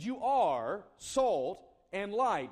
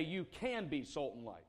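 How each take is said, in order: First: Slow, louder, "are" leaned on hard; stress on are. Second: Said in the usual way. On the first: Shown as a demonstration. Preacher telling the congregation what Jesus said, slow, heavy stress on "are". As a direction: land on "are" like a verdict, slowly. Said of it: "He said". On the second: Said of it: "He didn't say".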